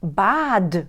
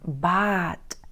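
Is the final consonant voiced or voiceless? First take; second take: voiced; voiceless. First: The final consonant is voiced. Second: The final consonant is voiceless. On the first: The speaker calls it wrong. "не бад" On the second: The speaker calls it right. "в кінці слова або в кінці складу ми вимовляємо приглушено"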